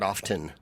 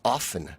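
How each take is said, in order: First: The t sound is clearly pronounced. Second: The t sound is left out. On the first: The speaker calls it wrong. "the one that everybody mispronounces" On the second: The speaker calls it right. "the T's not uh, pronounced"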